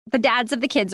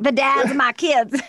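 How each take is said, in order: First: Said in the usual way. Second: Lightly put-on trashy mom, pitched up; mock trashy voice. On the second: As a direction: play up how trashy it sounds. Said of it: "sounds like such a trashy thing".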